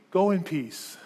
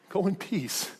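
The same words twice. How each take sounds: First: Said in the usual way. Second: Hushed, lightly mocking repeat; incredulous echo. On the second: Preacher echoing the jailer's words to beaten prisoners, quietly incredulous. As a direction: echo it softly, as if it were absurd.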